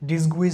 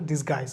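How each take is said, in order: First: A w sound follows the g. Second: No w sound follows the g. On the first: The speaker calls it wrong. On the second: The speaker calls it right.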